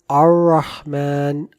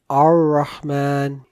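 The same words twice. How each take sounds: The two takes are said the same way.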